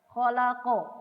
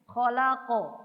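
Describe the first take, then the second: The two takes are said the same way.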